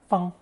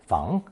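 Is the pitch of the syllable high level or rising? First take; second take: high level; rising. First: The pitch stays high and level. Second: The pitch rises from mid to high. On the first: "first tone" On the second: "second tone"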